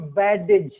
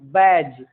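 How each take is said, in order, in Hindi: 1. d की ध्वनि अलग से बोली जाती है। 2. d की ध्वनि छोड़ दी जाती है। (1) "न कि बैडेज नहीं" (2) "डी का उच्चारण जी के पहले साइलेंट है"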